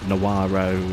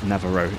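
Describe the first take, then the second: First: The middle consonant is a W sound. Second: The middle consonant is a V sound. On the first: The speaker calls it wrong. "it's not Nawaro" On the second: The speaker calls it right. "it's more of a V sound than a W sound"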